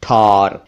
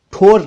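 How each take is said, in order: First: ठौर with open "au", lower; "aw" vowel in ठौर; correct ठौर. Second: ठोर with rounded "o"; pure "oh" in ठोर; mispronounced ठौर. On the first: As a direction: say ठौर as "thaur". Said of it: "ये ठौर है". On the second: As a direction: say ठोर as "thor". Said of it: "ठोर नहीं". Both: Shown as a demonstration.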